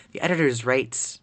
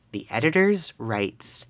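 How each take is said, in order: First: Said in the usual way. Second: Slow, measured reread of "the editors writes"; deliberate reread. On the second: Real, not acted. Streamer rereading a stumbled game line, slowly and deliberately. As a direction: draw out "editors writes" word by word.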